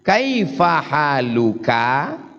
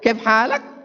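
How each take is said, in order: First: Full standard form with the final vowels kept. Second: Shortened Saudi dialect form with final vowels dropped. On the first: This is the formal standard language. "kita pakai bahasa baku" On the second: This is how people speak in Saudi Arabia. "Sampai ke Saudi Arabia"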